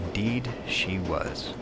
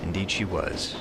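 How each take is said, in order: First: Slow, drawn-out "Indeed" lifted before a pause; emphatic repetition. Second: Said in the usual way. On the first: Acted. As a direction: linger on "Indeed", then finish "she was" slowly. Character repeats the line for emphasis.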